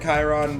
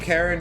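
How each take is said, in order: First: The name begins like the sound 'kai'. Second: The name begins like the word 'care'. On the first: The speaker calls it right. "I know it's probably Chiron" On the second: The speaker calls it wrong. "I always keep saying Karen"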